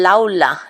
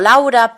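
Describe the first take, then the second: First: The middle consonant is an l. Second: The middle consonant is a tapped r. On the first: "muchos chinos que empiezan a estudiar español me llaman Laula" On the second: "Yo me llamo Laura"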